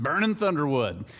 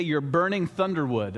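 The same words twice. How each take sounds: First: Light southern accent. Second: Said in the usual way. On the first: Shown as a demonstration. Pastor repeating a Georgia saying, in a light southern accent. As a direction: try the phrase again with a hint of a Southern US accent. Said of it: "have to say that one with a southern accent". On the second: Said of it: "I feel like you have to say that one with a southern accent".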